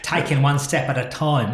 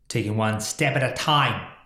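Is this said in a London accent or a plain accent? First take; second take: London; plain. First: It is said in a put-on London accent. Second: It is said in the speaker's ordinary accent.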